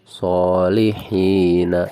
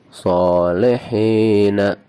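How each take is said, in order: First: The middle vowels sound like i. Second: The middle vowels sound like e. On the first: The speaker calls it right. "Bacaan yang benar adalah solihina" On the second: The speaker calls it wrong. "itu bacaan yang salah"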